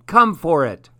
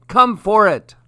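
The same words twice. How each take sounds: First: Loud, higher teasing call; taunting. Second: "Come for it" shouted much higher and louder, mocking; louder taunt. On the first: Acted. Monkey daring the crocodile from the branch, teasing. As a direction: dare him to come and get it. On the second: Monkey mocking the stranded crocodile, louder taunt. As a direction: throw the dare down even harder.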